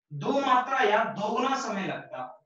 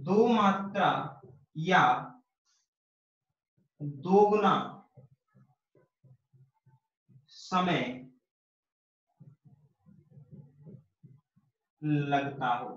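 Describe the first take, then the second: First: Said in the usual way. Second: "दो मात्रा या दोगुना समय लगता हो" spoken slowly, word by word with long pauses; slow dictation of "दो मात्रा या दोगुना समय लगता हो". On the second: Shown as a demonstration. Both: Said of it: "वो सुन लो सर".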